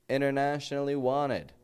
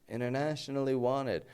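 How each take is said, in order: No difference in how they are said.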